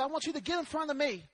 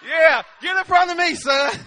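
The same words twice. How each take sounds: First: Hushed, hurried instruction; retold fatherly instruction. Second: Louder, hearty push to the son; loud mock-eager fatherly order; retold comic urging. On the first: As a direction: slip it in quietly to the boy. Retold calm instruction to son. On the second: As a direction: send the boy ahead, loudly.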